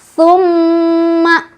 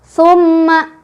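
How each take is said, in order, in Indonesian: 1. Huruf m yang dobel dibaca dengung dan ditahan panjang. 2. Huruf m yang dobel dibaca dengung tapi ditahan sebentar. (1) "bacaan yang betul adalah summa summa, dua ya" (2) "udah betul ada tasdid tapi dengungnya kurang menahan ya"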